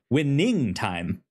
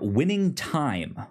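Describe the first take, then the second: First: The stress falls on the word winning. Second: The stress falls on the word time. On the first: "There you go" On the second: "puts the emphasis on time and not winning time"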